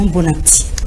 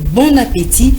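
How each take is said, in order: First: The é vowel in appétit is not clearly pronounced. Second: The é vowel in appétit is clearly pronounced. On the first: The speaker calls it wrong. "et non bon appétit" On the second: The speaker calls it right. "il faut prononcer bon appétit"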